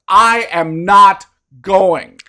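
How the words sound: It is said emphatically, with weight on each word.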